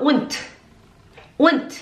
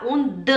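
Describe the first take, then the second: First: Hard, voiceless ending on "und"; correct final T. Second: Voiced D with an extra vowel after "und"; wrong voiced ending. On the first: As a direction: end "und" in a crisp T. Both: Shown as a demonstration. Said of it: "A gente não fala und".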